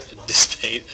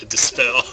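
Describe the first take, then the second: First: "Dispate" ending like "spate" instead of "spell"; slip on Dispate. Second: "Dispel" ending like "spell", louder; corrected to Dispel. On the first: Commentator misnaming the card, "Dispate" ending in -ate. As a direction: say "Dispate" with a long A and final T. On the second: Commentator correcting his own slip, "Dispel" ending in -ell, loud. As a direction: land firmly on "Dispel" with a short E and final L. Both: Real, not acted. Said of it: "Dispate is not a word".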